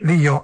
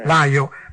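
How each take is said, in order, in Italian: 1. La prima vocale è un semplice suono 'ee'. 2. La prima vocale è un suono 'eye'.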